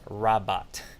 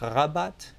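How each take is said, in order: First: The R is a plain English R. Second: The R is made at the back of the throat. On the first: "Or do I just say Rabat?" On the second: "Do I say it at the back of my throat?"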